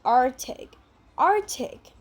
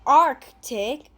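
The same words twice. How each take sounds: First: ARCTIC without the k, "AR-tic", carefully modelled; silent C. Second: ARCTIC with a clear k before the t, "ARK-tic"; C pronounced. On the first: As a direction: leave out the first C in Arctic. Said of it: "We don't really pronounce the letter C". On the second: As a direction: sound out the first C in Arctic. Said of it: "We don't say Arctic". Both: Shown as a demonstration.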